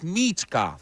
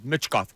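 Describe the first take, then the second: First: The name is said with heavy, exaggerated emphasis. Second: The name is said plainly, without extra force. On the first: The speaker calls it right. "you have to put stink on his name when you say it" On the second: The speaker calls it wrong. "I don't want to know Michkov. No"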